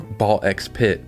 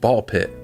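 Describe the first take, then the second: First: The letter X is spoken between the words. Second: The letter X is left out entirely. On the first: The speaker calls it wrong. "a game I guess I've been pronouncing wrong for a long time now" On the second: The speaker calls it right. "somebody told me it was called Ball Pit"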